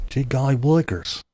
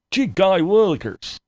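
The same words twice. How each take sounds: First: Said in the usual way. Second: Put-on higher, gee-whiz innocent kid voice; wholesome 1950s kid. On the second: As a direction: gush it like a wide-eyed kid. Mock innocent exclamation.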